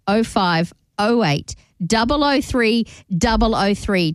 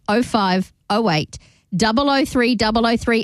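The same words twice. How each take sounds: First: It is said slowly. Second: It is said at normal speed.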